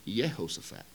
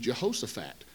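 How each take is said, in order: First: The name begins with a Y sound. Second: The name begins with a J sound. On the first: This is how the name was originally said. "It was used with a Y sound" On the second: This is how the name is said today. "we see a J and we pronounce it with a J sound"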